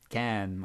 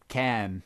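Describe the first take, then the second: Both takes have the same delivery.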